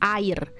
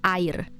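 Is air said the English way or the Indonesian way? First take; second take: Indonesian; Indonesian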